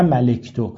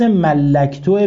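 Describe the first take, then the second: First: ملکتو with one short L, ma-lek-tu; single L. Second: ملکتو with a doubled L, mal-lak-tu. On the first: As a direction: say ملکتو undoubled, with an "e": malektu. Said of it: "نه ملکتو". (ملکتو بدون تشدید، با کسرهٔ لام) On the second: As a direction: hold the L in ملکتو, then an "a": mallaktu. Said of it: "به تشدید". (ملکتو با تشدید روی لام) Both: Shown as a demonstration.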